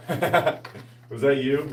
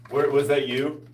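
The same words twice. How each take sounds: First: Slow, stretched tease through a laugh; laughing, drawn out. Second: Said in the usual way. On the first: Real, not acted. Teasing the viewer, slow and laughing. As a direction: drag out the question while laughing.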